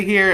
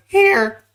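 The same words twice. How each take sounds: First: Said in the usual way. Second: HERE squeaked high and loud; cracking, high-pitched HERE. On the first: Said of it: "just comes out as here". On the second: Shown as a demonstration. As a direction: let HERE break upward into a squeak. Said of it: "Oh, the voice crack".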